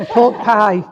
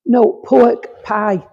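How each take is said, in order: First: "Pork pie" said through a laugh; laughing repeat. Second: Pork pie spelled out slowly for the listener; slow clear repeat. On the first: Laughing at her own Rotherham accent to the sitter, amused. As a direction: chuckle as you say "Pork pie" again. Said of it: "Oh, yeah, you translate". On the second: Repeating it slowly for the sitter who didn't catch it, careful and clear. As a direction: say "pork pie" slowly and plainly, each word apart. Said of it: "I'm from Rotherham, remember, I talk a bit". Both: Shown as a demonstration.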